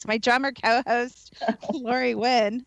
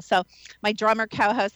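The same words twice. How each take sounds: First: Drummer co-host said slowly with weight on drummer; slow stressed drummer. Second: Said in the usual way. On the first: Shown as a demonstration. Host introducing her co-host, slow stressed drummer. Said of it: "I'm gonna call you a drummer this show". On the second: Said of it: "I'm gonna call you a drummer".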